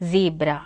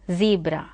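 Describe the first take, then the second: First: It is said in an American accent. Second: It is said in an American accent.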